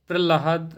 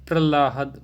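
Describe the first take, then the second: No difference in how they are said.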